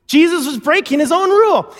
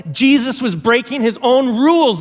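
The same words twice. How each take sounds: First: Emphatic repeat. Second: Said in the usual way. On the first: Acted. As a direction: drive it home the second time. Repeated with more force.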